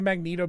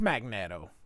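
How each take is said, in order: First: The middle syllable has a long 'ee' vowel. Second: The name begins like the word 'magnet'. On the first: This is how the name is commonly said. The speaker calls it wrong. "that's the way everybody pronounces it" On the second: The name comes from the word magnet. The speaker calls it right. "It's magnet"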